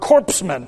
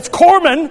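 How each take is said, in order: First: The word begins like 'corpse', with p and s. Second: The word begins like 'core', with silent p, s. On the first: The speaker calls it wrong. "to use the president's word" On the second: The speaker calls it right. "But to pronounce it properly"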